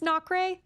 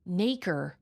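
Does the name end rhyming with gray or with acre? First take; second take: gray; acre. First: The name ends with a sound rhyming with gray. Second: The name ends with a sound rhyming with acre. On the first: The speaker calls it wrong. "I thought it was not gray" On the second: The speaker calls it right. "like acre?"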